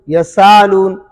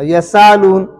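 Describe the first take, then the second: The two takes are said the same way.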